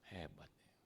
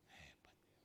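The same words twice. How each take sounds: First: Said in the usual way. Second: Unvoiced, hushed "Hebat ya"; whisper. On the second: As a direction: breathe it as a secret aside. Whispered aside in retold scene. (berbisik pelan)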